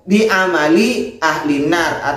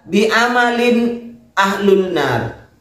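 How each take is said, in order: First: The endings sound as amali and ahlin. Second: The endings sound as amalin and ahlun. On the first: The speaker calls it right. "Kalau yang di bawah dibaca" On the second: The speaker calls it wrong. "Terus Anda membaca bi amalin ahlun nar"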